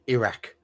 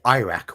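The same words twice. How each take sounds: First: It is said with a British vowel. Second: It is said with an American vowel. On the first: "we say Iraq" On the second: "You say Iraq"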